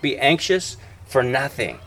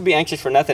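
First: It is said firmly, with strong emphasis. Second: It is said lightly, like a casual suggestion. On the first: It is a firm command. The speaker calls it right. "It's emphatic" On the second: It is only a friendly suggestion. The speaker calls it wrong. "It's not like this casual thing"

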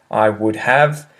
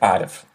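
First: It is said slowly with 'would' in full. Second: It is said quickly with 'would' contracted. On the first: "If you're going to speak slowly, it's okay to articulate" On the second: "If you're going to speak incredibly quickly, you would be more likely to say"

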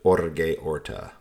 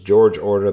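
First: The first name sounds like Spanish Jorge. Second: The first name sounds like English George. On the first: The speaker calls it right. "but it was actually Jorge Orta" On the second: The speaker calls it wrong. "So it was George Orta"

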